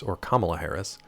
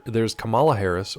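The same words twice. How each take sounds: First: "Kamala" said KAH-ma-la, stress on the first syllable; the other way to say "Kamala", stress on the first. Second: "Kamala" said ka-MAH-la, stress on the middle syllable; one way to say "Kamala" stressing the middle. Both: Shown as a demonstration. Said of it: "I get their pronunciations confused".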